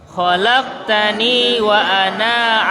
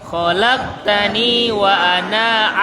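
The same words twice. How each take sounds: Both takes have the same delivery.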